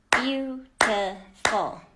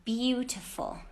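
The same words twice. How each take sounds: First: Slow clear model word. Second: Said in the usual way. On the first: Shown as a demonstration. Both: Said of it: "Let's go on to".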